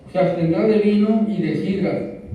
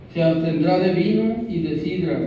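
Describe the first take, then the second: No difference in how they are said.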